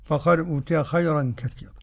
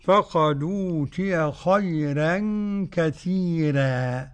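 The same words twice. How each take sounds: First: خيرا and كثيرا with full, heavy ر. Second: Slow recitation, thin ر in خيرا and كثيرا; فقد أوتي run together, ر of خيرا and كثيرا light; Warsh's light ra. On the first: Sheikh shows the other readers, heavy ر in خيرا. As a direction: recite فقد أوتي خيرا كثيرا briskly, ر kept heavy. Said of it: "والمخون". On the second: Sheikh shows Warsh's reading, slow with thinned ر in خيرا. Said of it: "كأن ورش يعمل إيه". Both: Shown as a demonstration.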